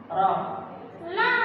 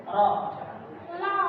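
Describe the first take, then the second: The two takes are said the same way.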